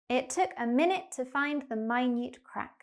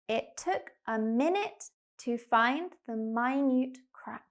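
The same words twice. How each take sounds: First: The sentence is spoken quickly. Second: The sentence is spoken slowly. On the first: "and then speed up. like a native speaker" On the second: "We're going to go slow to start"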